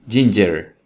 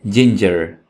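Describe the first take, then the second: Both takes have the same delivery.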